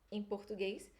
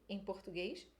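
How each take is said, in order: The two takes are said the same way.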